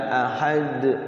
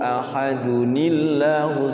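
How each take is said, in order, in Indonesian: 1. Berhenti di d dengan memantul. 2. Tersambung ke kata berikutnya, tanpa memantul. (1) "diwakaf dulu baru dia mantul" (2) "enggak ada kol-kolanya"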